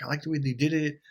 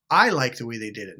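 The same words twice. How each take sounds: First: Said in the usual way. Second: "I" hit louder, the rest falling away; stress on I. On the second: Shown as a demonstration. Speaker insisting it's their own opinion of the haircut, stress on "I". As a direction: punch the word "I", then let the line drop.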